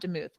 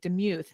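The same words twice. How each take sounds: First: The second syllable does not sound like mew. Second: The second syllable sounds like a cat's mew. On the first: The speaker calls it wrong. "not Demuth. My bad" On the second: The speaker calls it right. "I said your last name wrong at the very beginning. Demuth"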